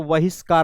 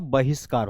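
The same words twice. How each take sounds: First: The word begins with a v sound. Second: The word begins with a b sound. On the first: The speaker calls it wrong. "व वाला बहिष्कार नहीं होता" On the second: The speaker calls it right. "बहिष्कार होता है"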